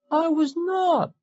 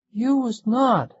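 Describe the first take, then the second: First: Put-on high, slow, wavering boy's voice; tearful child. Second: Put-on high, slow, loud boy's shout; child shouting. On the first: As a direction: protest through tears like a small boy. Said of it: "voice wavered tearfully". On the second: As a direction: yell it like an angry little boy. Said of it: "he shouted". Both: A narrator's reading.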